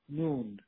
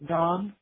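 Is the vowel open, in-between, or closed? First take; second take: closed; open. First: The vowel is a closed 'oo'. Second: The vowel is an open 'aa'. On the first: This is the fully colloquial form. "آها تبدیل به او میشن" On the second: This is the formal standard form. "ببین سه درجه"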